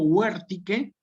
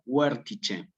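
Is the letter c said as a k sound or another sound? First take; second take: k sound; another sound. First: The c is said as a k sound. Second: The c is not said as a k sound. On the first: "Huértique es el latín clásico" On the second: "o digo huértice"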